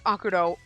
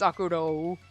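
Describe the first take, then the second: First: The O sound in the name is short. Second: The O sound in the name is drawn out. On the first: "which is one O" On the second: "with lots of O's"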